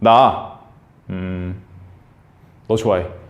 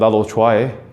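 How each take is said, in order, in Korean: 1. 첫 번째 단어 뒤에 망설이는 쉼이 있어요. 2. 쉬지 않고 그대로 쭉 말해요.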